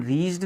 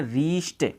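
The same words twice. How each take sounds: First: "रीच्ड" ending on a voiced D; wrong D ending. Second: "रीच्ड" ending on a T sound, reesh-t. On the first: Teacher shows learners what to avoid, "रीच्ड" with D ending. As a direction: finish "रीच्ड" with D instead of T. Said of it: "नहीं बोलेंगे". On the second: Teacher models the correct word for learners, "रीच्ड" with T ending. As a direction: finish "रीच्ड" with T instead of D. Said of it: "टे हो जाती है". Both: Shown as a demonstration.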